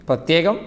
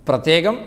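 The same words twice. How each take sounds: Both takes have the same delivery.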